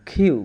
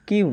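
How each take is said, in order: First: "কিউ" with a strong kh release; aspirated Q. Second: Said in the usual way. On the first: Shown as a demonstration. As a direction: push air through the k of "কিউ". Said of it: "কিউ না, কিউ". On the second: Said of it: "কিউ না".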